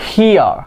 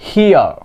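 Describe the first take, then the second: No difference in how they are said.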